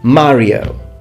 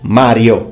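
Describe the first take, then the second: First: Mario is pronounced with an English accent. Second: Mario is pronounced with an Italian accent.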